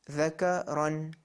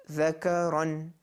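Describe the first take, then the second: The two takes are said the same way.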